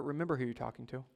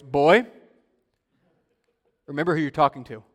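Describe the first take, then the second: First: Comforting. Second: Loud, firm paternal warning; firm dad. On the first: Shown as a demonstration. Pastor to those coming to God in prayer, comforting. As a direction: offer it gently as a comfort, not a threat. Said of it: "but as a comfort". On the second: Retold or imitated. Dad to mouthy teenage son, firm imitated threat. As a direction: imitate a stern father putting his boy in his place. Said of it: "my dad saying with a firm, deep voice".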